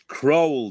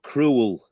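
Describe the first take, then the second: First: The name sounds like 'crow-ell', two clear syllables. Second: The name sounds like the word 'cruel'. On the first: The speaker calls it right. "it's Crowell" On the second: The speaker calls it wrong. "not not Cruel"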